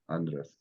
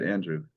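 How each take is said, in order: First: "Andres" with an open AH, as AHN-dress; Greek pronunciation. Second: Said in the usual way. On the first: Shown as a demonstration. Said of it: "This is Andres". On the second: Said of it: "that's right, Andrew".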